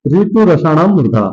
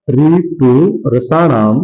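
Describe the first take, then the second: First: Said in the usual way. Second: Very slow, stretched syllables; slow dictation. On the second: Shown as a demonstration. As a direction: draw out each word for writing down. Teacher repeats the sutra for dictation. (बहुत धीरे, खींचकर)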